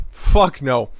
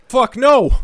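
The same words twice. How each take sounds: First: Said in the usual way. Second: High, loud outburst on the first take; emphatic outburst. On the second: Real, not acted. Emphatic repeated answer.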